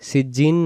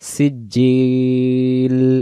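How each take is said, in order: First: The word ends with an n sound. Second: The word ends with an l sound. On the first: The speaker calls it wrong. "অনেকে সিজিন পড়ি, সিজিন না" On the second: The speaker calls it right. "এখানে শেষে লাম"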